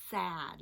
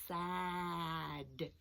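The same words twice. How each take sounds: First: Said in the usual way. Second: SAD stretched out, long s and vowel; said slowly. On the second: Shown as a demonstration. Teacher sounding out a word for children, slowly. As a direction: draw out each sound in "Sad". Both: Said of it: "Let's say it slowly".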